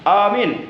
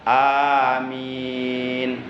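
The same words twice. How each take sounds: First: Both vowels are said short. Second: Both vowels are drawn out long. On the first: It tells someone to be a believer. The speaker calls it wrong. "Jangan begini" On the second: It asks God to grant the prayer. The speaker calls it right. "A-nya panjang, min-nya panjang"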